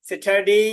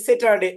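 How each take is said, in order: First: স্যাটারডে with an aspirated English t; স্যাটারডে, English-style; correct English. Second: Put-on স্যাটারডে said the old Bangla way; স্যাটারডে with a plain Bangla t; স্যাটারডে, Bangla-style. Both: Shown as a demonstration. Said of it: "কিন্তু এখন আমরা পড়বো".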